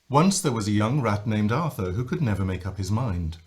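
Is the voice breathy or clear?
clear. The voice is clear and strong.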